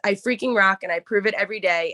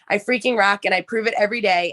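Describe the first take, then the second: First: It is said with moderate energy. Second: It is said with maximum energy.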